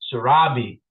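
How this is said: The name is said with an American accent. "if you want to say it in American style"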